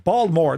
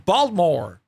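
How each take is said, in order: First: Baltimore is said with the local, reduced pronunciation. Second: Baltimore is said with standard, full pronunciation.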